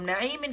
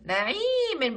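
First: Said in the usual way. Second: نعيم with the ي held long; drawn-out long vowel. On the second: Shown as a demonstration. Teacher showing pupils the madd with ya, نعيم stretched long. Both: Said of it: "نعيم فيها مد بالياء".

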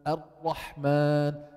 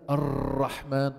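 First: Slow الرحمن, ra held without rolling; untrilled ra. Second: الرحمن with a long rolling r; over-trilled ra. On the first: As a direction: hold the tongue still on the ra of الرحمن. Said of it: "شو مطلوب تقول". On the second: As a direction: vibrate the ra of الرحمن many times. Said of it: "خطأ". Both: Shown as a demonstration.

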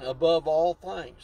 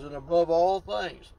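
First: "above all things" slowed, "above" stressed, falling at the end; slow emphatic reread. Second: ALL stressed with a falling tune in "And above all things"; emphasis on all. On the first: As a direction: read it again slower, weighting "above". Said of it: "Let me read that again". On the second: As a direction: lean on "all" and let it fall. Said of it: "that's putting some emphasis on it". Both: Shown as a demonstration.

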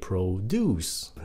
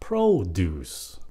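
First: PRODUCE said as pro-DUCE; verb stress. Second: PRODUCE slowly, as PRO-duce; noun stress. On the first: Teacher shows the verb, pro-DUCE stressed on the end. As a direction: hit the second syllable of PRODUCE. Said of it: "nếu động từ nhấn âm hai". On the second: Teacher shows the noun, slow PRO-duce stressed up front. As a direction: hit the first syllable of PRODUCE. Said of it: "nhấn âm một". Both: Shown as a demonstration.

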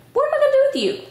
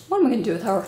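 First: Mock exasperation. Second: Said in the usual way. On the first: Real, not acted. Mother asking her little one what to do with her, in high mock exasperation. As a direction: playfully scold in a high-pitched voice. Turns to scold child playfully.

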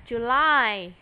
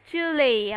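First: "July" ending in a stressed LIE sound; correct July. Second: "Julie" ending in a LEE sound; wrong-example "Julie", second syllable as "lee"; mispronounced July. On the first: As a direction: say "July" as joo-LIE, second syllable strong. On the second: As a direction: say "Julie" like the girl's name, stressed up front. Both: Shown as a demonstration. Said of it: "không đúng ha".

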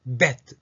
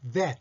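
First: Bet with both lips popping the b; B, the wrong take. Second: Vet with teeth-on-lip buzzing v; V, the correct take. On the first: Teacher rejecting bet for vet, lip-burst b. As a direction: say bet with a hard closed-lip start. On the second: Teacher correcting bet to vet, clear v onset. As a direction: ease into vet on a voiced v. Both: Shown as a demonstration. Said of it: "betではなくて".

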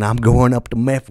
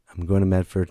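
First: Slight Southern twang, a bit loud; accidental Southern accent. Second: Said in the usual way. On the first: Real, not acted. Comic announces tour stop, accidental Southern twang. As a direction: let a Southern lilt slip in. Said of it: "why do I sound southern". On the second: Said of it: "I just caught myself".

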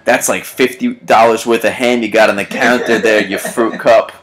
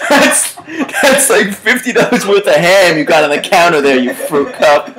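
First: Said in the usual way. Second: High, laughing delight; laughing reread. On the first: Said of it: "God's Ruins writes". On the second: Shown as a demonstration. Host rereads his favorite comment to cohost, laughing. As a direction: relish the insult through laughter. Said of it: "That's a great comment".

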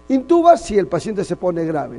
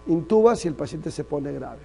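First: "Intuba" hit hard and loud, the rest pressed; emphatic first take. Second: Said in the usual way. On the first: Shown as a demonstration. Teacher to students, drilling a rule, "Intuba" stressed loud. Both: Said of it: "¿no?".

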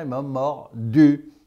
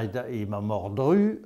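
First: Mordu said cleanly without the r, slow and a bit louder; correct form mordu. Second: Mordru said with an extra r, the pupil's mistake; wrong form mordru. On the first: Teacher correcting the pupil, slow firm mordu. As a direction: slowly hit the correct mordu, no r. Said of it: "on dit, le chien, il m'a mordu". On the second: Teacher quoting the pupil's mistake, mordru with the stray r. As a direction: repeat the faulty mordru with the added r sound. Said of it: "on dit pas, euh, chien, il, il m'a mordru". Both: Shown as a demonstration.

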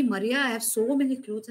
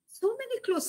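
First: Said in the usual way. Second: "many" leaps much higher in disbelief; incredulous echo. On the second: Retold or imitated. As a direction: echo her words back, astonished.

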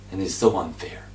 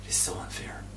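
First: Said in the usual way. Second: Whispered "It's so unfair"; hushed echo. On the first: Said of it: "repeated as a whisper". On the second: Shown as a demonstration. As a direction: repeat it without voice. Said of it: "repeat after plain take".

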